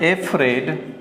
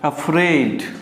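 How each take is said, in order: First: The word begins with an 'ay' sound. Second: The word begins with a short 'uh' sound. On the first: The speaker calls it wrong. "जब आप इसे बोलते हैं एफ्रेड तो ये गलत हो जाता है" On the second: The speaker calls it right. "अफ्रेड ये करेक्ट उच्चारण होता है"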